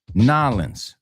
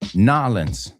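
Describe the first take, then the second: First: The name is squeezed into fewer syllables. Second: The same.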